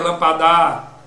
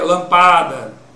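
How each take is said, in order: First: The last syllable is lengthened and stressed. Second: The middle syllable is lengthened and stressed. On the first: "Se eu prolongasse o dá" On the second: "Se eu prolongasse o pá"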